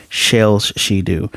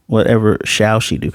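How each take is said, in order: First: "shells" said slowly in place of "shall"; slow playful "shells she do"; mock misreading. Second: Said in the usual way. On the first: Shown as a demonstration. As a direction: drawl "shells she do" as a joke.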